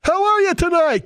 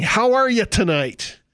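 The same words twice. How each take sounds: First: Much higher and louder greeting; hyped emcee. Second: Mock emcee greeting. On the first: Retold or imitated. Preacher mimics a rally emcee greeting the crowd, high and loud. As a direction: pump the crowd up like an MC. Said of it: "It's just part of the schlick". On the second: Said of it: "he starts by saying".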